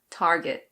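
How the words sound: It is said in American English with the R. "In American English, you pronounce the R, so it's Target"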